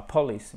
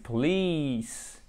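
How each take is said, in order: First: "police" as PAW-lis, stress on the first syllable; mispronounced short I. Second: "police" as po-LEEECE, very slow; "police" stressed and stretched on the second syllable; correct long I. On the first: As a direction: say "police" wrongly, with a short last vowel. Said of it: "c'est pas police". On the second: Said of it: "Faut vraiment le prononcer comme ça". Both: Shown as a demonstration.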